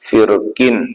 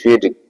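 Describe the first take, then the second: First: The r sound is said heavy and full. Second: The r sound is said light and thin. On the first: "റായിന് തഫീം ആയിരിക്കണം, അഥവാ കനത്തിൽ ഉച്ചരിക്കണം" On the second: "ലഘുവാക്കിയിട്ട് ഉച്ചരിക്കുക"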